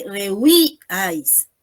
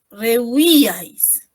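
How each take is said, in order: First: "rehuíais" broken slowly after the stressed í: re-u-Í, ais; stress on first I. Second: "rehuíais" stretched slowly as one word, re-u-Í-ais; stress on accented I. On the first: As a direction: split "rehuíais", holding the first i before "ais". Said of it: "En la primera I". ("rehuíais" separado, marcando la primera í) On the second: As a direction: draw out "rehuíais", leaning on the first i. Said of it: "si tiene tilde en la I". ("rehuíais" lento y seguido, con acento en la í) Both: Shown as a demonstration.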